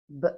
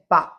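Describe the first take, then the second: First: A short b sound with no vowel after it. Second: A b sound followed by an added vowel. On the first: The speaker calls it right. "The correct phonetic sound for this alphabet is B" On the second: The speaker calls it wrong. "We don't say ba"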